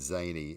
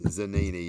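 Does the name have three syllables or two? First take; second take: two; three. First: The name is said with two syllables. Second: The name is said with three syllables. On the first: The speaker calls it wrong. "I'm saying Zaney. It's I don't think that's it" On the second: The speaker calls it right. "It's Zanini"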